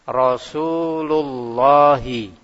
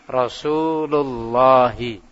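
The two takes are said the same way.

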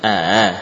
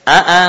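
First: One glottal stop is softened, not fully closed. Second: Both glottal stops are said in full.

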